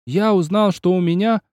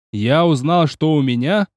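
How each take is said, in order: First: Wailed echo. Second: Shouted recital. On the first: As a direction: echo the verse back as a holler. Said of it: "заголосил Киоси". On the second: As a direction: yell the poem line while leaping. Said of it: "выкрикнул". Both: Acted.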